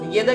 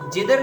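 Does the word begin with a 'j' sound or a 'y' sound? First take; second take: y sound; j sound. First: It begins with a 'y' sound and ends in 'a'. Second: It begins with a 'j' sound and ends in 'r'. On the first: The speaker calls it right. "इसको येदा येदा की तरह पढ़ रहे हैं" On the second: The speaker calls it wrong. "जिधर नहीं पढ़ रहे"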